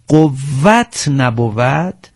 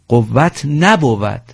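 First: The stress falls on the word قوت. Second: The stress falls on the word نبود. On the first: The speaker calls it right. "تأکید روی قافیه، مثل قوت" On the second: The speaker calls it wrong. "نفرمایید قوت نبود، نه"

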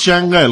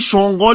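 First: The second vowel is a short 'o' sound. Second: The second vowel is a long 'oo' sound. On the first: The speaker calls it right. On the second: The speaker calls it wrong.

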